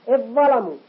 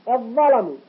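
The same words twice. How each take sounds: No difference in how they are said.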